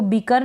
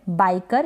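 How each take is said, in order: First: बीकर with a long ee sound; wrong reading of biker; wrong ee vowel. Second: बाइकर with a clear ai glide; right reading of biker; correct ai vowel. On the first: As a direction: say बीकर with ee, not ai. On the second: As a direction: open बाइकर on ai. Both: Shown as a demonstration. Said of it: "इसको बीकर ना पढ़े".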